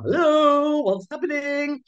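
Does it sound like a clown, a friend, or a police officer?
clown. It is said in a silly clown voice.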